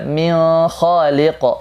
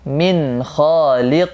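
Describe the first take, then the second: First: The n sound is blurred, not clearly pronounced. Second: The n sound is pronounced clearly and distinctly. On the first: The speaker calls it wrong. "Jangan dibaca" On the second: The speaker calls it right. "tapi min khaliq. Jelas"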